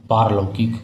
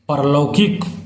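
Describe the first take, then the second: First: The first syllable has a long vowel. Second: The first syllable has a short vowel. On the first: The speaker calls it right. "इसका सही रूप है पारलौकिक" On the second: The speaker calls it wrong. "परलौकिक शब्द गलत है"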